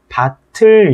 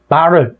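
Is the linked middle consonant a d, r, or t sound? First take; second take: t; r. First: The middle consonant sounds like an aspirated t. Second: The middle consonant sounds like an r. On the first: The speaker calls it right. "얘는 발음이 밭을 이렇게 돼야 된다는 얘기죠" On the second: The speaker calls it wrong. "바를 뭐 이런 식으로 발음하는 경우도 되게 많은데"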